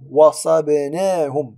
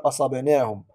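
First: The word begins with a w sound. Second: The word begins with a glottal stop. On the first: The speaker calls it right. "سنقرأها واو" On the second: The speaker calls it wrong. "ولم نقول أصبناهم"

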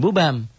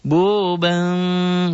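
First: The M sound is a plain full M. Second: The M sound is soft and nasalized. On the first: The speaker calls it wrong. "bukan bu bam" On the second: The speaker calls it right. "bunyi M tapi ada samar"

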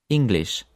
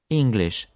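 The two takes are said the same way.

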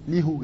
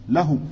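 First: The first vowel is an 'i' sound. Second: The first vowel is an 'a' sound. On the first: The speaker calls it wrong. "Ça se dit pas, c'est lourd" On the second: The speaker calls it right. "Tu diras lahu"

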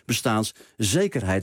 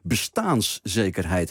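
First: The stress falls on the 'zekerheid' part. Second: The stress falls on the 'bestaans' part. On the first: The focus is on security in general. The speaker calls it wrong. "Net zoals je dat nu vaak hoort bij bestaanszekerheid" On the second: The focus is on the security of existence itself. The speaker calls it right. "pleit ik voor een klemtoonherverschuiving"

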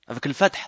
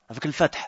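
Both takes have the same delivery.

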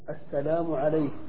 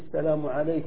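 First: The final consonant is a full s sound. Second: The final consonant is a plain k sound. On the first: "إبدالهم كاف المؤنث المتطرفة سينا" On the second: "في السلام عليك للمرأة"

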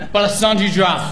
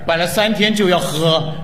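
First: The phrase is said quickly, run together. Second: The phrase is said slowly, word by word.

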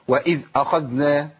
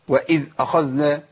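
First: The dh sound is cut off abruptly. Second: The dh sound is cut off abruptly.

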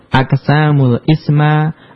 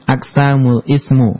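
First: The final word ends in the vowel a. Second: The final word ends in the vowel u. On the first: "enggak boleh dibaca" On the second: "enggak boleh dibaca"

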